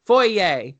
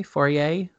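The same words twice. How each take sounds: First: "Foyer" said as FOR-yay, with the y sound and a firm falling finish; found it. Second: "foyer" said as FOR-ray, with no y sound; wrong try. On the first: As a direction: land "Foyer" cleanly as for-yay, louder and higher. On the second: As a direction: fumble "foyer" into fore-ray. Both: Shown as a demonstration. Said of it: "There it is".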